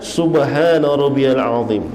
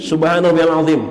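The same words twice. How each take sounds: First: It is said calmly and unhurried. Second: It is said hurriedly and clipped short.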